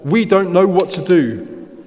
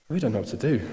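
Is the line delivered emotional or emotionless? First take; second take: emotional; emotionless. First: It is said with strong, pleading emotion. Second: It is said flatly, without emotion. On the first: The plea is heartfelt and desperate. The speaker calls it right. "I think he's laying it all out" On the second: The plea is recited without feeling. The speaker calls it wrong. "I don't think he said this in an emotionless kind of"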